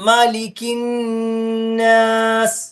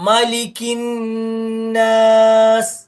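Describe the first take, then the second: No difference in how they are said.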